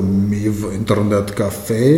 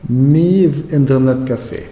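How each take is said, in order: First: Heavy Russian accent, lower; Russian oligarch accent. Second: Said in the usual way. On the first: Shown as a demonstration. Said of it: "ein russischer Oligarch klingen". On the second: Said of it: "Muss ich da auch so ein bisschen wie ein, ein russischer Oligarch klingen".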